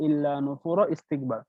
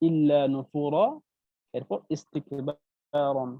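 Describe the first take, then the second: First: The words run together without any pause. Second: There is a pause before the last word. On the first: The speaker calls it wrong. "একসাথে যদি পড়েন ... সেক্ষেত্রে আপনার ভুল হবে" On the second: The speaker calls it right. "যদি আপনি থেমে পড়েন সেক্ষেত্রে আপনাকে ইস্তিকবার পড়তে হবে"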